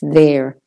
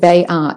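First: It is contracted into one short syllable. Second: It is said as two separate full words. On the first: The speaker calls it right. "it's there" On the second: The speaker calls it wrong. "don't make it they are"

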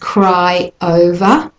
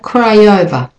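First: The two words are said separately. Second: The two words are linked together.

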